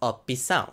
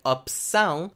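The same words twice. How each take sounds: First: An E sound is inserted between P and S. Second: The P and S are said together, no vowel. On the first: "they will insert an E sound, which leads us to opção" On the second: "consonant clusters like opção, you have ps"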